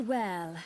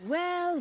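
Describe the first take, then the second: First: Said in the usual way. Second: Pitched-up, drawn-out well; sly greeting that rises; a knowing, teasing well; mock surprised well. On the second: Pirate greets Morgan mockingly.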